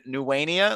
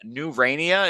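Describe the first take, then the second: First: The name is said with a W for the R. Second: The name is said with a clear R sound.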